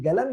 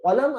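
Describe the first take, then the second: First: It begins with a hard g sound. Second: It begins with a deep back q sound. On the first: "Saudi में कई जगह पर कलम को गलम भी कहते हैं" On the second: "या तो कलम अगर कहना है"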